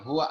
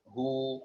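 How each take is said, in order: First: The word ends with a full 'wa' syllable. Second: The word ends with a long 'u' sound. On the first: The speaker calls it wrong. "di wakaf maka bacanya jangan huwa lagi" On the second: The speaker calls it right. "makanya bacanya uh, hu"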